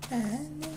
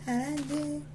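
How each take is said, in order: Both takes have the same delivery.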